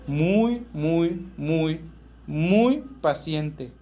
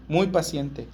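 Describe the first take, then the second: First: Each muy leaned on harder, the last muy paciente dragged out very slowly; drawn-out emphasis. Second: Said in the usual way. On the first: Real, not acted. Preacher to congregation on God's patience, slow drawn-out emphasis.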